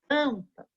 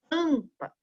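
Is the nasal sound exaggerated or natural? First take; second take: natural; natural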